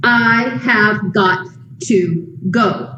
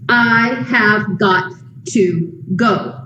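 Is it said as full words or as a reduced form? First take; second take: full; full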